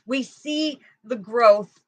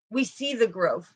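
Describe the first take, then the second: First: "We see the growth" said slowly, leaning on "see"; slow emphatic repeat. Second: Said in the usual way. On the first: Real, not acted. Reader repeating the point to viewers, slow and emphatic. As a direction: drag out "see" and let it fall.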